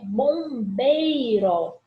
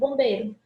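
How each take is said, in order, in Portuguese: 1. O som do i no meio é claramente ouvido. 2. O som do i no meio quase não é pronunciado. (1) "a escrita é bombeiro, com esse ditongo" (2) "O Izinho quase não é pronunciado"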